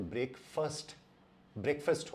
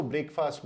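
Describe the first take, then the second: First: ब्रेकफास्ट said brek-fust, short e; ब्रेकफास्ट with a short brek and weak fust; correct pronunciation. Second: ब्रेकफास्ट said brake-fast, long a; ब्रेकफास्ट as two clear words; wrong pronunciation. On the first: Scene: teacher giving the right form twice. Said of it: "इसका pronunciation". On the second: Scene: teacher showing the common error. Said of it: "वो सही नहीं है". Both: Shown as a demonstration.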